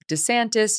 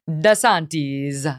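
First: The name is pronounced the Americanized way. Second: The name is pronounced the Italian way. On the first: "make it a little bit more Americanized and might just go with DeSantis" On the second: "the proper Italian pronunciation would be DeSantis"

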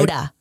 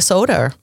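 First: The word ends in a plain vowel, no R. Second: The word ends with an added R sound. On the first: The speaker calls it right. "I'm going to say it right now" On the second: The speaker calls it wrong. "I think I said soda with an R"

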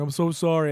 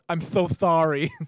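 First: The s sounds are clear, with no lisp. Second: The s sounds are lisped through missing teeth.

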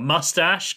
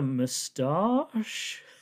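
First: The word is said in an American pronunciation. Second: The word is said in a non-American pronunciation.

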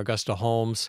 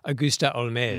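First: The surname is said in an English way. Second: The surname is said in a French way. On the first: This is how her father said the name. "That's how her father probably pronounced it" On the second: This is how she, identifying as French, said her name. "she identified as Augusta Holmès"

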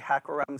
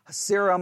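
First: The middle consonant is a k sound. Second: The middle consonant is an s sound. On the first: "some people don't say Hakkerem" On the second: "some say Hasserim"

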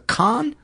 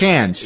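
First: The vowel sounds like the one in 'con'. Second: The vowel sounds like the one in 'can'. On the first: The speaker calls it right. "I've heard it pronounced a couple of different ways. A con, I think, is it?" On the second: The speaker calls it wrong. "I know it's not Cannes. I used to pronounce it Cannes"

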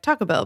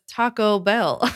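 First: It is run together quickly as one word. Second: The two words are said separately and clearly.

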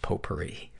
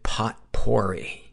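First: The word is said the French way. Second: The word is sounded out as it is spelled. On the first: This is how the word is meant to be said. The speaker calls it right. "it's pronounced potpourri" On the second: The speaker did not know how to say it. The speaker calls it wrong. "because I didn't know, I pronounced it potpourri"

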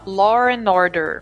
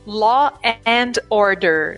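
First: An intrusive r links law and and. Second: It is said with no r after law.

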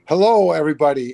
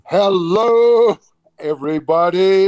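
First: It is said flatly, with little energy. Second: It is said loudly, with big energy.

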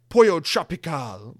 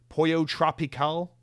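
First: It is said with a Spanish accent. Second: It is said with an American English accent.

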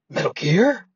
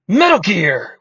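First: It is said with a questioning rise. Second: It is said forcefully as an exclamation.

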